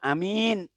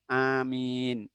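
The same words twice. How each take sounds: First: The first vowel is short, the second long. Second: Both the first and second vowels are long. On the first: It means a trustworthy person. The speaker calls it wrong. "A-nya pendek, min-nya panjang" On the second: It asks God to answer the prayer. The speaker calls it right. "A-nya panjang, min-nya panjang"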